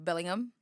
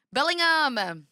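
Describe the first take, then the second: First: Said in the usual way. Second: "Bellingham!" shouted higher and louder with a falling end; loud exclaim. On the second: Shown as a demonstration. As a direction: belt out "Bellingham!" like a stadium chant. Repeats the name, testing his accent.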